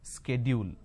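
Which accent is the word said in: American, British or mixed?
mixed. It mixes British and American pronunciation. "we end up pronouncing this as schedule. This is where we go wrong"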